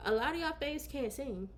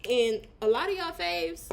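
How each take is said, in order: First: Staring into the camera, dead serious; mock serious. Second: Said in the usual way. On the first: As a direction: deliver it like a bold confession. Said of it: "and look into this camera". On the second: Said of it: "let me take the glasses off".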